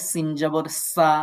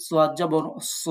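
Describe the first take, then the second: First: সিন জবর সা said thin and light, barik; thin sin. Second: সোয়াদ জবর স said full and heavy, por; full heavy swad. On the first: Teacher contrasting sin with swad, thin. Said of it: "সিনের মতো বারিক". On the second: Teacher contrasting swad with sin, heavy. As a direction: give সোয়াদ জবর স a thick, heavy sound. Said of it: "একটু পোর করে শক্ত". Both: Shown as a demonstration.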